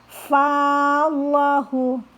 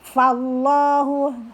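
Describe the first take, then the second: First: The first vowel is held long. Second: The first vowel is kept short. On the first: The speaker calls it wrong. "Tidak boleh dibaca fallahu" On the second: The speaker calls it right. "walaupun ada alif tidak dibaca panjang"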